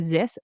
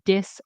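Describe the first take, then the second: First: The word begins with a buzzing z sound. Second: The word begins with a hard d sound. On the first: "don't say ... zis" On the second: "don't say dis"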